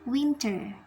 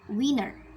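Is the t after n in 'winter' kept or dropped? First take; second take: kept; dropped. First: The t after the n is clearly pronounced. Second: The t after the n is absorbed into it. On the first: The speaker calls it wrong. "we cannot say winter" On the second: The speaker calls it right. "but winner"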